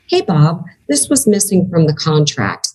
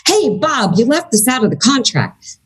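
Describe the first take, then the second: First: Said in the usual way. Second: Pitched up, calling Bob out with an edge; charged accusing tone. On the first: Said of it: "It's the same tone". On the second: Shown as a demonstration. Contract holder confronts Bob, charged accusing tone. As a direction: point the finger at Bob about the contract. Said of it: "I teach people to speak charge neutral".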